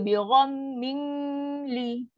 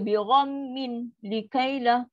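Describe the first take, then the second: First: The n is held with a nasal hum before l. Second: The n is pronounced clearly and separately before l. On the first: "dah dengung pula. Salah" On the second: "Dah jadi izhar pula. Salah juga"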